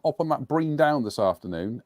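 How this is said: It is spoken in a West Country accent. "that was very West Country"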